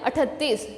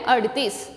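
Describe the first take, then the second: First: The middle consonant is an aspirated t sound. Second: The middle consonant is a flapped r sound. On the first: The speaker calls it wrong. "ये अठतीस नहीं है" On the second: The speaker calls it right. "ये है अड़तीस"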